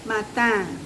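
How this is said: It is read with French pronunciation. The speaker calls it right. "Tapi kalau bahasa Perancis dibacanya matin"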